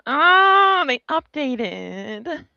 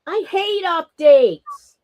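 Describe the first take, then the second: First: High, slow whiny moan; kvetching. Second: Slow, sulky complaint; complaining.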